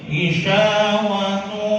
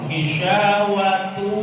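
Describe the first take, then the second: No difference in how they are said.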